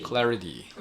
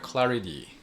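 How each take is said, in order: First: The middle consonant is a soft D sound. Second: The middle consonant is a soft D sound.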